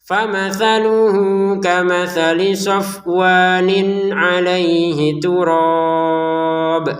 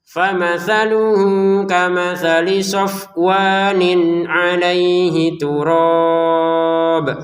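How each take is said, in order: Both takes have the same delivery.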